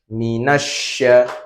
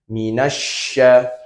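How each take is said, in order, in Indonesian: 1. Bunyi sh ditahan dahulu sebelum dilanjutkan. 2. Bunyi sh ditahan dahulu sebelum dilanjutkan.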